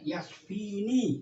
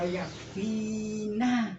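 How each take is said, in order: First: The final n carries an 'i' vowel. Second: The final n carries an 'a' vowel. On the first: The pronoun suffix refers to the speaker. The speaker calls it right. "Vini harus dibaca ini" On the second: The pronoun suffix changes meaning incorrectly. The speaker calls it wrong. "ini nunnya fathah ... Nah ini keliru nanti"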